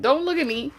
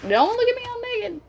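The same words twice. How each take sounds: First: Said in the usual way. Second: Much higher, squeaky "Don't look at me all naked"; mock squeal. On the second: Shown as a demonstration. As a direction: squeal it like you're caught bare. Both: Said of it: "Like that kind of energy".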